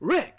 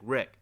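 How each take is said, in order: First: The name is exclaimed loudly and sharply. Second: The name is mumbled quietly and softly. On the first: He calls out the name in surprise. The speaker calls it wrong. "an exclamation like you were like" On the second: He is quietly thinking of the name. The speaker calls it right. "he maybe even mumbles it. He's like"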